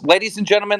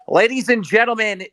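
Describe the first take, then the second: First: It is said in his normal voice. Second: It is said in a DramaAlert announcer voice.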